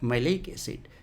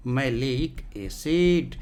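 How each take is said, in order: First: Said in the usual way. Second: malic acid stretched out slowly; slowly repeating malic acid so students remember; slow drawn repeat. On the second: Shown as a demonstration. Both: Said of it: "इसका भी नाम है malic acid".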